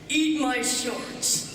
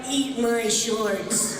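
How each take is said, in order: First: It sounds like a teenage boy. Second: It sounds like a young adult man. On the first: "a fifteen-year-old Bart saying the same thing" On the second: "a twenty-two-year-old Bart"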